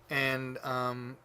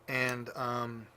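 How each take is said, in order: No difference in how they are said.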